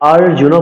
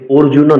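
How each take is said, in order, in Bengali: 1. প্রথম স্বরধ্বনিটি খোলা 'a' ধ্বনি। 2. প্রথম স্বরধ্বনিটি গোলাকার 'o' ধ্বনি। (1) "অর্জুন বলতে হবে" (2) "অর্জুন নয়, কিন্তু উক্ত স্থানে ও নেই"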